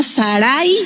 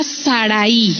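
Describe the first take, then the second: First: Sarai with the second A accented; stress on second A. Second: Said in the usual way. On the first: Shown as a demonstration. Preacher showing the Hebrew name, Sarai stressed on the second A. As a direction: put the accent of Sarai on the A before the final i. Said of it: "en la segunda A".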